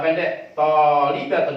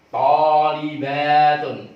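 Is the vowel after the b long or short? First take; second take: short; long. First: The vowel after the b is short. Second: The vowel after the b is held long. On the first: It becomes a singular, not a plural. The speaker calls it wrong. "pendek tolibatun misalnya gitu" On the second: It is the plural form. The speaker calls it right. "bacaannya yang benar"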